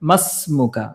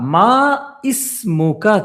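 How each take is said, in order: First: The words are joined, with the i dropped. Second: The two words are separate, with the i sounded. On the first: "বাক্যের মাঝখানে আসে তখন আর আলিফটা উচ্চারিত হয় না" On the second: "মা ইসমুকা ছিল"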